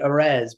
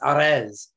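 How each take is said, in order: First: The R is soft, as in English. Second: The R is hit hard and rolled. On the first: "for the gringos of us, we could just say" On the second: "if we hit that hard R"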